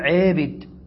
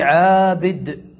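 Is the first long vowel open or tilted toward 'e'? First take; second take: tilted; open. First: The first vowel is tilted toward 'e'. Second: The first vowel is a plain open 'a'. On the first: "وبالإمالة تصير على نمط واحد، تقول عابد" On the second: "النطق بالفتحة والألف متصعد مستعل"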